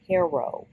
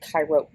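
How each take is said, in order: First: It is pronounced like the local village name. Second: It is pronounced the standard way for the city. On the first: "it's pronounced Caro" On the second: "It's Cairo, Egypt"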